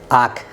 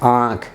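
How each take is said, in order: First: The vowel is said without nasal sound. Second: The vowel is said with nasal sound. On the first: "यहाँ चंद्र बिंदु हटा दिए" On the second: "लेकिन यहाँ चंद्र बिंदु लगा दिए"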